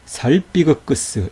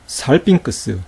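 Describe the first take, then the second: First: The gamma is pronounced as a hard g. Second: The gamma is pronounced as an ng sound. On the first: The speaker calls it wrong. "그렇지 않다는 거예요" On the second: The speaker calls it right. "이렇게 발음했다는 거예요"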